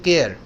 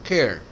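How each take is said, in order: First: The k sound has no puff of air. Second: The k sound has a puff of air. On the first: The speaker calls it wrong. "हम कहते हैं केयर, कार, केट, जो गलत होता है" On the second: The speaker calls it right. "थोड़ा एच है इसमें"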